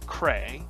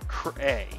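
First: The first half of the name is stressed. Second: The second half of the name is stressed. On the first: The speaker calls it right. "the second half of this name is pronounced less forcefully than the first part of the name. So it's Cray" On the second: The speaker calls it wrong. "not Cray"

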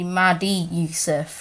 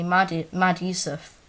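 First: An extra 'ee' sound links Mad to Yusuf. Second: Mad is said with no added vowel. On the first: The speaker calls it wrong. "So it sounds like it's actually Maddie Yusuf like that" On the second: The speaker calls it right. "but it's actually Mad Yusuf"

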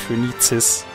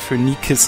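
First: The consonant before the last syllable is ts. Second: The consonant before the last syllable is a k. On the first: The speaker calls it wrong. "nicht Phönizis. Das finde ich nicht so schön" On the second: The speaker calls it right. "Ich sage Phönikis"

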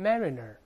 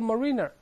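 First: The stress falls on the first syllable. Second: The stress falls on a later syllable. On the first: The speaker calls it right. "重音在前面" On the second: The speaker calls it wrong. "注意不要读mariner，别瞎猜啊！"

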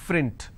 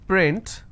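First: It begins with an f sound. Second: It begins with a p sound. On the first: The speaker calls it wrong. "a lot of people pronounce this as frint. So that is where the mistake happens" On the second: The speaker calls it right. "if I have the word which is print"

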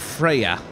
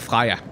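First: The name is said with an English pronunciation. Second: The name is said with a Danish pronunciation.

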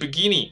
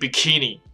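First: The middle consonant is a g sound. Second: The middle consonant is a k sound. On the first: The speaker calls it wrong. "不是g 在里面，所以不是bikini" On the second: The speaker calls it right. "它是k 在里面"

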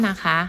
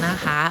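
Both takes have the same delivery.

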